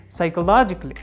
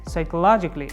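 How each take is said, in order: The two takes are said the same way.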